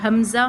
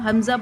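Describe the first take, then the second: No difference in how they are said.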